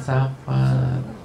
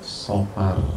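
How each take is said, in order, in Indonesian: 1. Vokal pertama terdengar seperti 'a' terbuka. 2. Vokal pertama terdengar seperti 'o' membulat. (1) "Bukan Safar"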